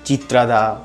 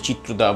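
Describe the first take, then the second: First: The name is said in a possible Odia way. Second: The name is said in the Bengali way. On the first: "উড়িষ্যার ভাষায় তো অন্য কিছু নাম হতে পারে" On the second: "আমার তো বাংলায় প্রোনাউন্সিয়েশন ওরকমই হবে"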